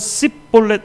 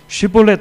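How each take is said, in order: First: The word begins with an 's' sound. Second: The word begins with an 'sh' sound. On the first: The speaker calls it wrong. "에스에이치로 발음이 안 되는 거예요. 그래서 씨볼렛 이렇게 발음을 하는 거죠" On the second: The speaker calls it right. "쉬라고 하는 에스에이치로"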